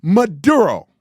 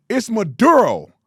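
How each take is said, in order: First: Maduro said with a Spanish accent, louder; mock Spanish accent. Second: Said in the usual way. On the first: Shown as a demonstration. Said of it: "It's not Maduro".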